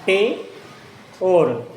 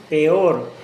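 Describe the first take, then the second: First: "Peor" as PE... OR with a long pause; split into syllables. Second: Said in the usual way. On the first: Shown as a demonstration. Teacher divides the word for students, long syllable break. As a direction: say "Pe", wait, then "or", loudly. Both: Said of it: "Divide la palabra en sílabas".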